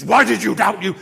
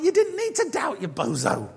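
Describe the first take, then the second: First: Loud, furious accusation; angry rebuke. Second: High start dropping into a teasing jibe; playful chiding. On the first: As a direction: thunder it like a stern judge. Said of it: "like, anger in Jesus". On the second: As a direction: rib him fondly for doubting. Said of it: "I don't think there was, like, anger". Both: Acted.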